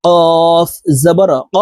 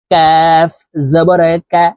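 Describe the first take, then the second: First: কফ held long from the root of the tongue; very slow, heavy uvular কফ; back-tongue কফ. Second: কাফ drawn out with a light k, slightly forward of the tongue root; long, light কাফ with a fronted vowel. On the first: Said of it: "জিহ্বার গোড়া তার বরাবর". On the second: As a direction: model a thin Arabic k in কাফ জবর কা. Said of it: "গোড়া থেকে একটু আগে". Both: Shown as a demonstration.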